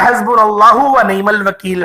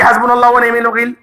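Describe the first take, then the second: First: The phrase is recited slowly and carefully. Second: The phrase is recited quickly and hurriedly. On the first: The speaker calls it right. "इसी तरीके से पढ़िएगा" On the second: The speaker calls it wrong. "ऐसे नहीं कि ... तेज तेज पढ़े"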